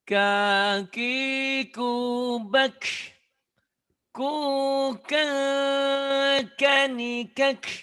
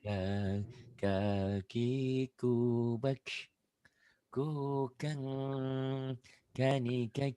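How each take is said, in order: First: It is said loudly with forceful beats. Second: It is said in a low, soft voice. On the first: "Kalau kencangnya kayak gini" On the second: "suara rendah"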